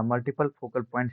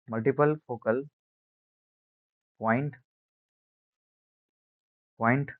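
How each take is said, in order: First: Said in the usual way. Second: Spaced out for note-taking. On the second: Shown as a demonstration. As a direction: pause before the last word. Dictates the term in chunks.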